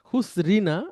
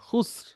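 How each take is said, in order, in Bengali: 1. শব্দটি r-এর পরে একটি স্বরবর্ণ দিয়ে চলতে থাকে। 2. শব্দটি একটি খালি r ধ্বনি দিয়ে শেষ হয়।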